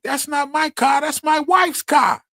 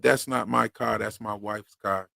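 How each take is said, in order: First: Very high, loud, drawn-out squawking outburst; Gilbert Godfrey impersonation. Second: Said in the usual way. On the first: Retold or imitated. Man redoing his movie-line impersonation for co-host, high shouted squawk. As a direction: shout it far up high as an exaggerated comic impression. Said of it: "I was doing my Gilbert Godfrey impersonation".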